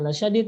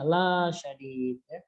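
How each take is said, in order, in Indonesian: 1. Vokal pertama dibaca pendek. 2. Vokal pertama dibaca panjang. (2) "tidak ada matnya dibaca ada matnya"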